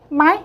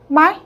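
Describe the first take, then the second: First: The syllable is said short, in the third tone. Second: The same.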